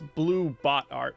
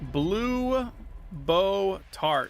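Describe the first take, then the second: First: The t sound ends the middle word, 'bot'. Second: The t sound starts the last word, 'tart'. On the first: The speaker calls it right. "It's Blue Bot Art" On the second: The speaker calls it wrong. "I'm not saying it right"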